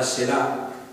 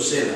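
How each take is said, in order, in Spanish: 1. La acentuación está en la segunda sílaba. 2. La acentuación está en la primera sílaba. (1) "o mejor dicho" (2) "es la primera sílaba, es la, la más fuerte, y la segunda es más débil"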